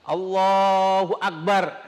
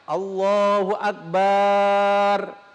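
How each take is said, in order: First: The last syllable has a short vowel. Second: The last syllable has a lengthened vowel. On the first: God is the greatest. The speaker calls it right. "Ini kalau mengucapkannya dengan benar" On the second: God is a big drum. The speaker calls it wrong. "ini dipanjangkan baknya"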